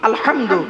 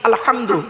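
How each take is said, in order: The two takes are said the same way.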